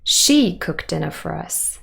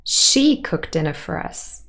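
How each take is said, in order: First: The strongest stress falls on she. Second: The same.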